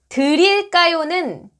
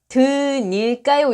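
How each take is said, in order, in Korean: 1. 두 번째 음절은 혀를 살짝 튕기는 r 소리로 시작해요. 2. 두 번째 음절은 n 소리로 시작해요.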